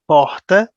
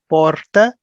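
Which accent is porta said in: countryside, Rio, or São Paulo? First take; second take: Rio; São Paulo. First: It is said in a Rio de Janeiro accent. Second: It is said in a São Paulo accent. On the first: "in Rio accent, they say porta" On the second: "In São Paulo accent, they say porta"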